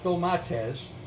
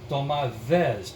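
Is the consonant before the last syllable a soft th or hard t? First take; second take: hard t; soft th. First: The last syllable begins with a hard t sound. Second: The last syllable begins with a soft th sound. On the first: The speaker calls it wrong. "not domates" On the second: The speaker calls it right. "as the Greek people pronounce it, T H E Z"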